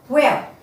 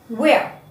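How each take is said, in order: No difference in how they are said.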